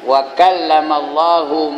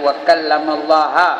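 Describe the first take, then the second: First: The word Allah ends with a 'u' vowel. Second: The word Allah ends with an 'a' vowel. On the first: God is the one who spoke to Moses. The speaker calls it right. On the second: Moses is the one who spoke to God. The speaker calls it wrong.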